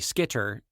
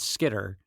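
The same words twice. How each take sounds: First: The middle consonant is a crisp T. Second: The middle consonant is a soft D. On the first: "you take it as a hard T" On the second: "a D as skitter"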